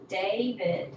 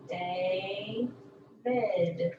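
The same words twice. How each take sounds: First: Said in the usual way. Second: "David" with a long first syllable, gap, then the second; split syllables. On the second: Shown as a demonstration. Teacher showing the first syllable, "David" split in two. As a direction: break "David" into two drawn-out beats. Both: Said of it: "end of the first syllable".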